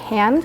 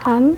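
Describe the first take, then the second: First: The word is said roughly and strongly. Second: The word is said softly and gently. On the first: This is the English way of saying it. "we pronounce it a bit more rough, I guess, a bit more strongly" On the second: This is the German or Dutch way of saying it. "you guys are more like hand"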